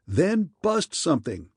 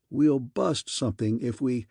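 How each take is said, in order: First: Higher-pitched, curt bark; barked order. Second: Said in the usual way. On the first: A narrator's reading. Wilson cutting off Manning's objection, barking. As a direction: bark it back with punch on "bust". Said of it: "barked Wilson".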